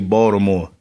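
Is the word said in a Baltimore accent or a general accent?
Baltimore. It is said in a native Baltimore accent.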